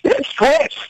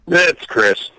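First: It is said with lively energy. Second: It is said flatly, without energy.

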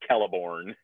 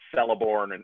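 First: The first C is hard, like a K. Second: The first C is soft, like an S. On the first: The speaker calls it right. "C's are always hard" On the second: The speaker calls it wrong. "it's not Celeborn or anything"

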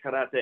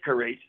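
First: The R is rolled. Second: The R is not rolled. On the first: The speaker calls it right. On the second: The speaker calls it wrong.

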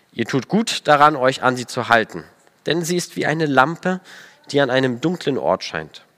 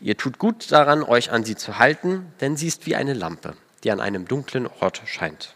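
The two takes are said the same way.

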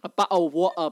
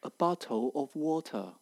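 First: It is said in a rural local British accent. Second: It is said in a textbook standard British accent.

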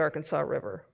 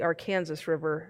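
First: The name is said with a non-local pronunciation. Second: The name is said with the local Kansan pronunciation. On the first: This is how outsiders name the river. The speaker calls it wrong. "not the Arkansas River" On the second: This is how locals name the river. The speaker calls it right. "we call it the Arkansas River"

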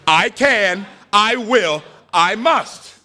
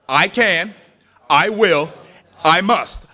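First: It is said forcefully, with conviction. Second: It is said calmly, without extra force.

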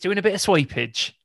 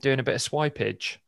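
First: It is said in an exaggerated put-on accent. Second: It is said in the speaker's ordinary accent.

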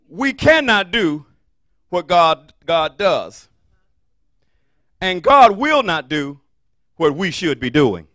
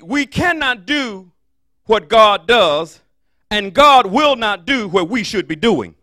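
First: The sentence is spoken at a slower pace. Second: The sentence is spoken at a fast pace. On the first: "Can I say it again for you?" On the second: "I know what I said it fast"

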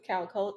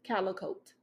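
First: The name is said with two syllables. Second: The name is said with three syllables. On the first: The speaker calls it right. "my name is Calcote" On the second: The speaker calls it wrong. "I've heard Calicote"

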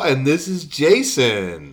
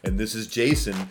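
First: It is said in an exaggerated put-on voice. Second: It is said in his ordinary speaking voice.

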